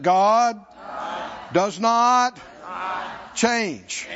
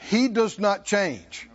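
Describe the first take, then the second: First: "God ... does not ... change" in separate, weighty pieces; emphatic call-out for repeating. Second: Said in the usual way. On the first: Real, not acted. Preacher has congregation repeat it, emphatic word by word. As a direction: punch "God" and "not", pausing for the crowd to echo. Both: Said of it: "Come on, somebody say it".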